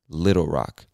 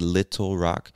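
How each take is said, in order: First: The T in 'little' sounds like a D. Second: The T in 'little' is a crisp T. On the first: "almost as if the two T's were two D's" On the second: "You can say Little Rock"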